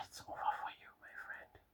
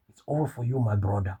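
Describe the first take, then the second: First: Sigh, then whisper it gravely; whispered verdict, as if all hope is gone; hushed doom. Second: Said in the usual way. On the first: Acted. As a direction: breathe it out in a near-silent whisper. Mock doom for a caught impostor.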